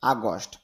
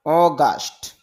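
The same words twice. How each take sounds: First: আগস্ট starting with আ, the usual Bangla way; common Bengali pronunciation. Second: অগাস্ট with a rounded অ and a long আ in গা; English pronunciation. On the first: (Bangla ধাঁচে আগস্ট, আ দিয়ে শুরু) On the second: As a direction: say অগাস্ট the English way, not আগস্ট. (ইংরেজি উচ্চারণে অগাস্ট, অ দিয়ে শুরু) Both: Shown as a demonstration. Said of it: "যদিও আমরা আগস্ট বলি".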